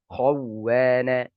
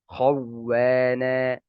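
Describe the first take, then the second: No difference in how they are said.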